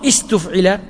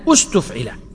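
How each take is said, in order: First: The word opens with a vowel other than u. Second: The word opens with an u vowel. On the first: The speaker calls it wrong. "مو استفعل" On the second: The speaker calls it right. "همزة الوصل تتبع هذا المضموم في الضم"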